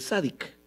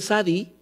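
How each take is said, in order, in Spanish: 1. La palabra termina con sonido k. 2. La palabra termina sin sonido k. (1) "pronuncian esa kuf y le dicen sádic" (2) "algunos dicen sadi, ¿verdad? Como los sefarditas"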